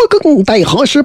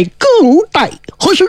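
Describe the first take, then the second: First: Said in the usual way. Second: High, soaring call; ringing summons. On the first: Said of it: "说". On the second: A narrator's reading. Chijingzi summons Ziya back to life, high and ringing. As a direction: fling the words upward like an incantation. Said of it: "叫了一声".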